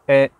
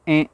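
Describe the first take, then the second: First: The sound comes out through the mouth. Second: The sound comes out through the nose. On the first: "par la bouche" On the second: "On n'est pas obligé de faire un dans le nez"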